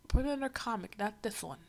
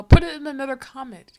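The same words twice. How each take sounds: First: Said in the usual way. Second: Much louder, a sudden exasperated shout; loud outburst. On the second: Real, not acted. Reacting to the comic, telling it to go elsewhere, loud exasperated shout. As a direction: blurt it out loud and fed up.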